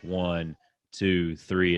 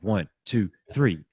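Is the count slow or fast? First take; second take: slow; fast. First: The count is said slowly. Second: The count is said quickly.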